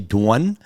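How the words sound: It is said in a Long Island accent.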